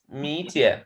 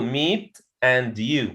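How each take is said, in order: First: The t and y blend into a ch sound. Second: The two words are kept apart, unlinked. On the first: "If I want to say it in a sentence" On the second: "if I want to pronounce it separately"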